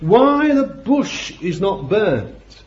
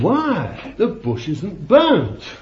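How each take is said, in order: First: It is said as a plain, flat question. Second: It is said as an astonished exclamation.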